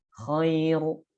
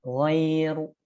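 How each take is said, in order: First: Khairu with a voiceless raspy kh; kha sound. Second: Ghairu with a voiced throaty gh; ghain sound. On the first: Teacher contrasts kh with gh. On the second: Teacher contrasts gh with kh. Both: Shown as a demonstration.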